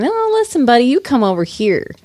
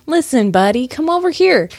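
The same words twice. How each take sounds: First: High squeal on the opening, then dropping; mock angry retort. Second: Mock-angry challenge, pitch jumping up at the end. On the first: Clue describer voicing the mimed fighter's comeback, mock angry retort. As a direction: fire back in a squeaky mock argument. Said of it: "And he's going". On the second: Clue describer voicing the mimed angry guitarist, mock angry. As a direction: call out a playful, put-on challenge. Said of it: "now he's angry".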